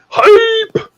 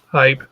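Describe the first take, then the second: First: The word is said loudly with high energy. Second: The word is said flatly with low energy. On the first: The speaker calls it right. "You have to say it like that" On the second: The speaker calls it wrong. "otherwise it's just like hype"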